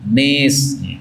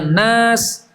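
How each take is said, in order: First: The vowel is tilted toward an e sound. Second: The vowel is an open a sound.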